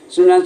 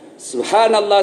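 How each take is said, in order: First: The word is rushed and slurred together. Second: The word is said slowly and clearly. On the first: The speaker calls it wrong. "jangan buru-buru dan tidak jelas ucapan" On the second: The speaker calls it right. "Itu ucapkan dengan baik"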